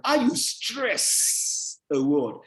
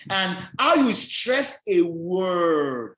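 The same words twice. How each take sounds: First: "stress" drawn out with a long hiss at its end; stressing the word. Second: Very slow, with "word" drawn out; stressing the words. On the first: Lecturer repeating the emphasis demonstration, "stress" stretched out. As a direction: hold "stress", then set "a word" apart. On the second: Lecturer demonstrating emphasis to students, slow stress through to "word". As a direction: stretch "stress" and linger long on "word". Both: Shown as a demonstration. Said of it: "I'm stressing now".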